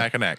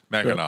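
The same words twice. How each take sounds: First: The final c is pronounced as a k. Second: The final c is not pronounced. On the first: The speaker calls it wrong. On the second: The speaker calls it right.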